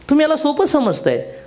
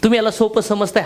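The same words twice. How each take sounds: First: तुम्ही hit high and hard, then falling; emphatic repeat. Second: Said in the usual way. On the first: Shown as a demonstration. Repeating the rebuke to the audience, with तुम्ही stressed. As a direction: punch तुम्ही higher to drive the point home.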